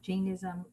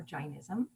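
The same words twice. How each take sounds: First: Jainism with a long A, like "Jane-ism"; first pronunciation. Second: Jainism with a long I, like "Jine-ism"; alternative pronunciation. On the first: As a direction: say Jainism with first vowel as in "day". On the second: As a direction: say Jainism with first vowel as in "my". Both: Shown as a demonstration. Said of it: "you could pronounce that".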